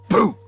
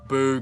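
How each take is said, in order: First: It sounds like a sudden shout meant to startle. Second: It sounds like a disapproving jeer at a performer. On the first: Someone is trying to frighten you. "Like to like scare you" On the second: The performance was bad. "boo as in like boo, bad performance"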